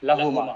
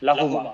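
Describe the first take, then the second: The two takes are said the same way.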